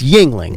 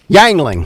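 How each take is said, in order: First: The first syllable is said like 'ying'. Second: The first syllable is said like 'yang'. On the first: This is the proper local pronunciation. The speaker calls it right. "it's Yingling" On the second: This mimics someone else's mispronunciation. The speaker calls it wrong. "he doesn't know how to pronounce Yingling beer"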